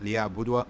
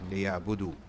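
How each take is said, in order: First: The word ends with an added 'wa' sound. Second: The word ends with a plain 'oo' sound. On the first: The speaker calls it wrong. "So it's not liya'budwa" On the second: The speaker calls it right. "it's silent"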